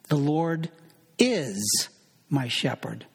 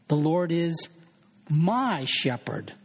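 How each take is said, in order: First: The word is is stressed. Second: The word my is stressed.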